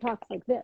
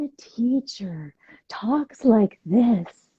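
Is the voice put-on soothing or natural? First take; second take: natural; put-on soothing. First: It is said in a natural, everyday voice. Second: It is said in a put-on, soothing yoga voice.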